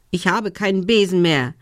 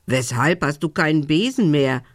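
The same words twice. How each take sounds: First: Mildly defiant little witch; a touch of stubborn retort. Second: Lightly voiced raven question; a hint of a croak, questioning. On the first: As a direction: answer back with some defiance. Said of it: "entgegnete sie trotzig". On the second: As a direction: ask as a raven, understated. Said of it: "krächzte der Rabe". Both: A narrator's reading.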